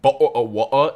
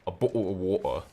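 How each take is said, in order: First: The T in bottle is dropped. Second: The T is pronounced, with a long O. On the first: The speaker calls it wrong. "It's not bottle of water" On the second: The speaker calls it right. "It's not cutting out the T. It's a long O"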